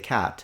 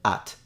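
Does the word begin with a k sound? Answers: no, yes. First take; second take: yes; no. First: The word starts with a k sound. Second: The word starts straight with the vowel. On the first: This is how the word is said today. "now we say cat" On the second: This is how people might say it centuries from now. "just drop the C or the K sound and just say at"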